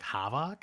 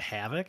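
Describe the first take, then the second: First: It is said in a Wisconsin accent. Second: It is said in a standard accent.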